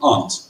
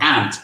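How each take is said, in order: First: The vowel is a broad, open 'ah' sound. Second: The vowel is a flat 'a' like 'ant'. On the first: It names a parent's sister. "I pronounce the opposite of uncle as aunt. I say my aunt" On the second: It sounds like the name of an insect. "over here you say my ant, which for me is an insect"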